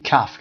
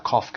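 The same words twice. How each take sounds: First: "calf" with a short a as in cat; American "calf". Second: "calf" with a long back ah; British "calf". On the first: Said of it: "که امریکن هست". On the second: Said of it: "که بریتیششه". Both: Shown as a demonstration.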